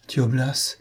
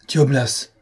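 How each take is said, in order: First: Trembling murmur. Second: High, startled exclamation; thunderstruck cry. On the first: Trembling marquise echoing the chevalier, understated murmur. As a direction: murmur it after him, a touch afraid. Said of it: "murmura après le chevalier la tremblante marquise". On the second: Saint-Georges facing the sudden apparition, startled cry. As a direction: exclaim the name in shock. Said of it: "s'écria Saint-Georges, foudroyé lui-même". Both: A narrator's reading.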